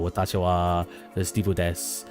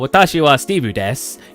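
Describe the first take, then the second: First: It is said with an attempted Japanese accent. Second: It is said with a plain English accent. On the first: The speaker calls it right. "I try to put something with it to make it not sound as English" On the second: The speaker calls it wrong. "Instead of saying"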